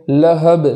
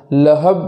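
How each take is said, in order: First: لہب with a bouncing ب; qalqala on ba. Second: لہب with a flat ب; wrong reading; no qalqala. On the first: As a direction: echo the final ب in لہب. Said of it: "اس طریقے سے پڑھیں گے". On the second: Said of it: "ایسا نہیں پڑھیں گے". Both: Shown as a demonstration.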